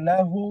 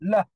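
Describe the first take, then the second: First: The word ends with a long u vowel. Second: The word ends abruptly on the h sound. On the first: "যেমন লাহু" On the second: "লাহু থেকে লাহ ... ওয়াকফ করে দিলে লাহ, সুকুন করে পড়তে হবে"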